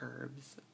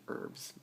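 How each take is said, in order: First: The word begins with an H sound. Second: The word begins without an H sound. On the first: This is how the speaker's community says it. "we pronounce the H. We go herbs" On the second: This is the supposedly standard way to say it. "I think actually it's supposed to be herbs"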